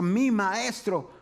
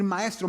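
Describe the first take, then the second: First: "mi" stretched and punched before "maestro"; slow down and lean hard on "mi"; stress on MI. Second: Said in the usual way. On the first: Shown as a demonstration. Contrasts generic and personal teacher. (énfasis lento y marcado en «mi»)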